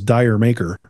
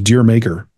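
First: The first word sounds like 'dyer'. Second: The first word sounds like 'deer'. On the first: The speaker calls it wrong. "You'd read it as Dyer Maker" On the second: The speaker calls it right. "Which is Deer Maker"

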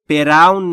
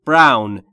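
First: A vowel sound comes between b and r. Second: No vowel sound comes between b and r. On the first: The speaker calls it wrong. "تلفظش براون نیست" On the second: The speaker calls it right. "بین بی و آر صدایی نیست"

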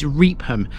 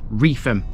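First: The middle consonant is a P sound. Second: The middle consonant is an F sound. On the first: The speaker calls it wrong. "Many people think this is Reepham" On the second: The speaker calls it right. "The PH in its name forms an F sound"

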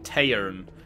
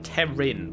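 First: The name is said with one syllable. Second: The name is said with two syllables. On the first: The speaker calls it right. "but it's more like Tairn" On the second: The speaker calls it wrong. "I was saying Terin"

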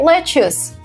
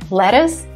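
First: The word is pronounced just as it is spelled. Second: The word is pronounced the usual native American way. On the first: The speaker calls it wrong. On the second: The speaker calls it right.

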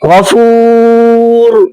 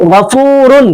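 First: The word stops on the final consonant 'r'. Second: The word ends with the full '-un' ending. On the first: The reader stops on this word. "আপনি যখন অক্ষ করবো তখন কি হবে?" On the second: The reading continues without stopping. "এখানে আছে গফুরুন"

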